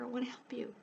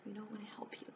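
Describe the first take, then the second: First: Said in the usual way. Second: "I wanna help you" breathed in a much softer whisper. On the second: Real, not acted. Repeats offer, drops to whisper.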